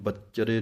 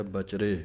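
First: ਬੱਚਰੇ with a doubled ਚ, bach-chre; wrong heavy form. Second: ਬਚਰੇ light, ba-chre, no doubled ਚ; soft light form. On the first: Teacher warns students off the ਬੱਚਰੇ error. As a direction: wrongly stress ਬੱਚਰੇ with addhak. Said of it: "ਇਹਨੂੰ ਬੱਚਰੇ ਨਹੀਂ ਕਹਿ ਦੇਣਾ". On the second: Teacher gives students the light ਬਚਰੇ. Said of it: "ਪੋਲਾ ਜਿਹਾ ਪਾਠ ਹੈ". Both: Shown as a demonstration.

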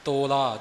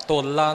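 First: ਤੋਲਾ said as "to-la", long o and single l; corrected ਤੋਲਾ with an undoubled l. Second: ਤੋਲਾ said as "tolla", short o and doubled l; wrong doubled l. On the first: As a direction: lengthen the o of ਤੋਲਾ, keep the l single. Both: Shown as a demonstration. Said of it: "ਤੋਲਾ ਨਹੀਂ ਕਹਿਣਾ".

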